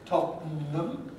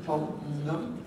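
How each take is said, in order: No difference in how they are said.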